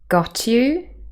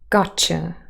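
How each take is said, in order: First: The t and y sounds stay separate. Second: The t and y sounds blend together.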